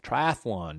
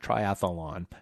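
First: The word is said with three syllables. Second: The word is said with four syllables. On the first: The speaker calls it right. "Triathlon, not triathlon" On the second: The speaker calls it wrong. "I just said it in an extra syllable"

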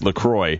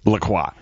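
First: The name is said in a plain, everyday way. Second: The name is said in a fancy, French-sounding way. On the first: The speaker is a down-to-earth person. "are you like salt of the earth person? That's LaCroix" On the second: The speaker is a pretentious, upscale person. "Are you super bougie? LaCroix"

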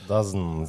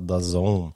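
First: The name is said as one word, 'Dazen'. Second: The name is said as two words, 'The Zone'. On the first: This is how the name looks when written. The speaker calls it wrong. "Dazen ser ut som det heter" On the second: This is what the name is actually called. The speaker calls it right. "men det heter altså The Zone"

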